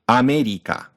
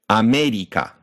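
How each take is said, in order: Both takes have the same delivery.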